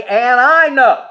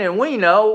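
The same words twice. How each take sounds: First: I said higher, louder and slow; And I know, with I lifted and punched; stress on I. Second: Said in the usual way. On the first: Shown as a demonstration. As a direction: lean hard on the word I. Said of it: "we're gonna say". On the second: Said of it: "instead of saying".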